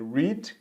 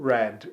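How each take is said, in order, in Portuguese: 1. É dito com a vogal do presente. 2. É dito com a vogal do passado. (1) "no presente a gente vai ler read" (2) "no simple past e no past participle a gente vai ler como read"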